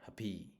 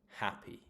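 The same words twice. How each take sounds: First: The stress is on the second syllable. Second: The stress is on the first syllable. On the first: The speaker calls it wrong. "It's not" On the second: The speaker calls it right. "It's on the first syllable"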